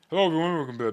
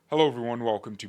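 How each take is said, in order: First: The words are slurred and run together. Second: The words are said clearly and separately. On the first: The speaker calls it wrong. "literally just slur" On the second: The speaker calls it right. "instead of saying"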